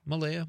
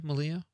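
First: "Malaya" as muh-LAY-uh, higher, questioning. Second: "Malaya" turned into muh-LEE-uh, higher, questioning; Malia with LEE. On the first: Host checking a listener's name, "Malaya" as muh-LAY-uh. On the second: Host trying the other option on a name, "Malaya" as muh-LEE-uh. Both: Shown as a demonstration. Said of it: "how would you say that".

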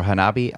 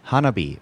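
First: Hanabi as huh-NAH-bee; second-syllable stress. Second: Hanabi as HAH-nuh-bee; first-syllable stress. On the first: Unsure co-host offering another reading, Hanabi stressed huh-NAH-bee. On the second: Unsure co-host naming the game, Hanabi stressed HAH-nuh-bee. Offers first of two pronunciations. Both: Shown as a demonstration.

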